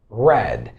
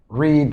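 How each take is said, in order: First: The vowel is short, like in 'red'. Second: The vowel is long, like in 'reed'. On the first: The speaker calls it right. "Simply we say red" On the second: The speaker calls it wrong. "I know that you pronounce it this way all the time. But it's wrong"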